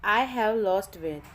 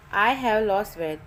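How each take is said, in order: Both takes have the same delivery.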